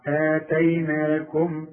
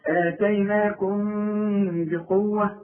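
First: آتيناكم slow, stopping on a shut-lipped m; closed final m. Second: آتيناكم بقوة with the m hummed through the nose; slow, sustained hum on the m of آتيناكم; nasal ghunna. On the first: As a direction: stretch the vowels of آتيناكم, then close the m. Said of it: "إذا وقفت عليه". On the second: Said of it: "في إخراج الغنة". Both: Shown as a demonstration.

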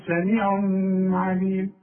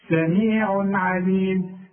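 First: سميع عليم with the tanween held in a long hum; sung, drag a ghunna between the words of سميع عليم; wrong nasal hum. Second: سميع عليم chanted slowly, tanween clear without a hum; slow recitation of سميع عليم, crisp n before ع. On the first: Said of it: "اوعى تقول". (sung, سميع عليم بغنة طويلة على التنوين بالغلط) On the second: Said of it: "اظهر بقى". (سميع عليم بإظهار التنوين من غير غنة) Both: Shown as a demonstration.

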